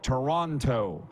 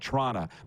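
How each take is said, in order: First: Every syllable of the word is clearly pronounced. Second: The word is clipped with syllables run together. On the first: "how to enunciate words like Toronto" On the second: "unless you're Don Cherry and say Toronto"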